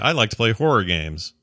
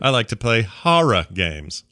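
First: It is said in the speaker's own accent. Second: It imitates the other host's accent on horror.

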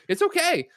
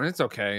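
First: It is said in a pleased, approving tone. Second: It is said in a resigned, lukewarm tone. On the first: The thing is actually good. "The inflection of where you are, where it's okay, is it's good" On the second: The thing is merely acceptable. "Where it's okay, is like, oh, well, it's fine"

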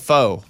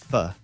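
First: The vowel sounds like the one in 'foe'. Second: The vowel sounds like the one in 'fuh'. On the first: The speaker calls it wrong. "which is what I called it until" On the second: The speaker calls it right. "you idiot, it's Fa"

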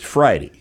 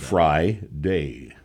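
First: The last syllable is reduced toward "dee". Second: The last syllable is a full "day" sound. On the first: The speaker calls it right. "It kind of turns into an E sound" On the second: The speaker calls it wrong. "Add fry to the front"

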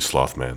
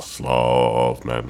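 First: It is said at a normal speed. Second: It is said slowly and drawn out. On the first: The speaker calls it wrong. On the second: The speaker calls it right.

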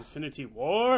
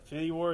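First: It is said dramatically, with big energy. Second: It is said plainly, in a normal voice.

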